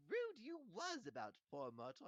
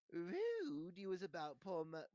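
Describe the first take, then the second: First: Very high impish taunt; Peeves, retake. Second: Slow, high, loud impish scolding; Peeves, first take. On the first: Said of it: "I like that better". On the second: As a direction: drag out the taunt loudly as an imp. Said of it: "said Peeves". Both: A narrator's reading.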